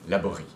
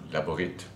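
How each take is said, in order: First: The name ends without a T sound. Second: The name ends with a T sound.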